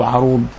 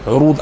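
First: عروض said 'arood, short "a" after the ayn; variant with fatha. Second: عروض said 'urood, short "u" after the ayn; rounded first vowel in عروض, "'u-rood"; variant with damma. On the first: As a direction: open first vowel in عروض, "'a-rood". (عروض بفتح العين) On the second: (عروض بضم العين) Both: Shown as a demonstration. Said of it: "بهذا الاسم".

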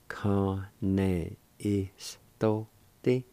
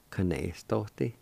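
First: Kane istote stretched very slowly, rising on istote; very slow demo. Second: Said in the usual way. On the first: Shown as a demonstration. Teacher modelling slowly before normal speed. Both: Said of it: "It is pronounced like this".

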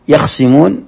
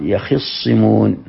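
First: يخصمون with a single light ص, yakhsimun; light reading. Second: يخصمون with a doubled ص, yakhissimun, drawn out slowly; doubled sad. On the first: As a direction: say يخصمون with no doubling on the ص. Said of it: "بالتخفيف". (يخصمون بتخفيف الصاد) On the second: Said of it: "أو بتشديد الصاد". (يخصمون بتشديد الصاد ببطء) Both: Shown as a demonstration.

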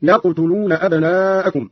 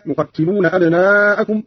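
First: يقتلون with "ya", still qaf, "tu"; light form. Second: Said in the usual way. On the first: Shown as a demonstration. Teacher shows Qalun's reading, يقتلون said "yaqtuluna". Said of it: "وضم التاء هكذا". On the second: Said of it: "قرأ قالون بفتح الياء وسكون القاف".

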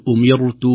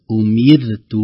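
First: أمرت with a wrongly heavy ra; wrong reading. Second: أمرت with a thin, light ra; correct reading. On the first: Sheikh showing the mistake to avoid, heavy ra. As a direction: say أمرت with a thick, emphatic ra. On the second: Sheikh showing the correct form, thin ra. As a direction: say أمرت with the ra kept thin after kasra. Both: Shown as a demonstration. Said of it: "لا نقول".

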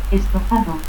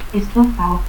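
First: Said in the usual way. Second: Estofao without its D; dropped D. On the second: Shown as a demonstration. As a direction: end in "-ao": Estofao. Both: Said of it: "pérdida de la D intervocal".

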